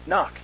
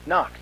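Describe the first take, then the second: No difference in how they are said.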